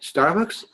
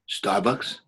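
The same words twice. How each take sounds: First: The voice resonates high up in the head. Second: The voice resonates low down in the chest.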